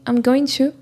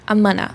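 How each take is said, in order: First: Every word is pronounced fully and separately. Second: The words are squeezed into a short reduced form. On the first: "she's just saying" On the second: "It's such a big contraction"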